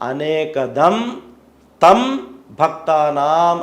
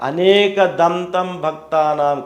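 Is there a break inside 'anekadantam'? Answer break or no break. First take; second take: break; no break. First: A break separates anekadam from tam. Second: Anekadantam is said as one joined word. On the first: The god gives many things to devotees. The speaker calls it right. "అనేక దం తర్వాత తం విడదీసి చదవాలి" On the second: The god has many tusks. The speaker calls it wrong. "అనేక దంతం భక్తానాం కాదు"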